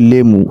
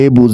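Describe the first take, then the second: First: The middle consonant is an 'm' sound. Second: The middle consonant is a 'b' sound. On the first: This is the Barishal dialect form. "বরিশালের ভাষায় বলে লেমু" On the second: This is the standard Bengali form. "আহা কি দেখতে পাইতেছেন লেবু"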